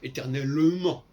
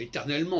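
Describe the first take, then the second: First: It is said with a southern French accent. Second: It is said with a northern French accent. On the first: "on ne dit pas éternellement" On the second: "en français du Nord, on dit éternellement"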